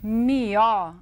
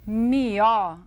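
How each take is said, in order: First: The word is said with a regional rural pronunciation. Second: The same.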